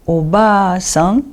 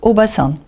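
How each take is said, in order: First: Slow obaa-san, the ba held out; long second A in obaa-san. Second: Oba-san with a brief ba; short A in oba-san. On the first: Teacher contrasts two meanings, long A in obaa-san. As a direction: stretch ba in obaa-san, rising at the end. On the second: Teacher contrasts two meanings, short A in oba-san. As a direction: keep ba short in oba-san, falling at the end. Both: Shown as a demonstration. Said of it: "va varier selon sa prononciation".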